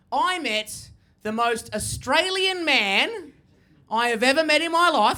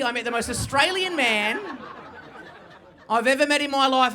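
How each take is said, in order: First: Slow build. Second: Said in the usual way. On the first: Shown as a demonstration. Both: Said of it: "Have a look at me".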